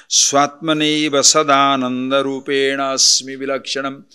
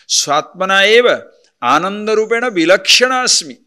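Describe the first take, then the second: First: Said in the usual way. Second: "Swatmana eva ananda rupena vilakshana asmi" with each word pulled apart; words split apart. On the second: Shown as a demonstration. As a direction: break the verse into separate words, stressing eva.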